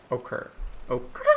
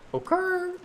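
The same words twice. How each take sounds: First: Whispered repeat. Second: High squeak. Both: Shown as a demonstration. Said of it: "I don't know what occurred".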